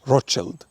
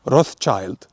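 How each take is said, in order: First: The name is said in a German-style pronunciation. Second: The name is said in an English-style pronunciation.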